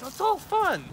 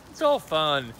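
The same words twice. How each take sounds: First: Very high put-on voice; comically high delivery; high squeaky voice. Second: Said in the usual way. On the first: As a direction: pitch it way up, far from your own voice. Acts it high, then plain.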